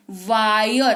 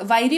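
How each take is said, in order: First: वायर as "vaa-yor", drawn out; correct pronunciation. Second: वायरी said "vaa-ee-ree", ending in long ee; wrong literal reading. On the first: Teacher answering how we read it, stretched "vaa-yor". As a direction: say वायर with a gliding "aa-yo". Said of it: "क्या पढ़ते हैं?". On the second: Teacher testing a wrong reading, literal "vai-ree". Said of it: "वायरी पढ़ लो". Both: Shown as a demonstration.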